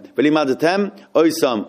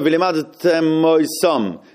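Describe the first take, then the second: First: There is a short break before the last word. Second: The words run together with no break. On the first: The speaker calls it right. "So you could make a stop after the end of mem" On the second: The speaker calls it wrong. "What happens if you don't stop? It sounds like one word"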